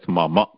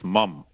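First: The word ends with a vowel after m. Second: The word ends on the consonant m. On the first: This is the Sanskrit way of saying it. "in Sanskritam you have to always pronounce it as mama" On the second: This is the Hindi way of saying it. "So in Hindi you may say mam"

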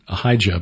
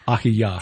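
First: The middle consonant is a j sound. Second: The middle consonant is a y sound. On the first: This is the usual English pronunciation. "and then Ahijah" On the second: This is the likely original pronunciation. "but it's probably Ahiyah"

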